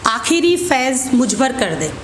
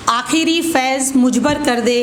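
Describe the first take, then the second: No difference in how they are said.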